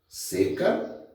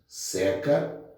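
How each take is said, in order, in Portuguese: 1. A vogal tônica e é fechada. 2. A vogal tônica e é aberta. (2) "forma do verbo secar"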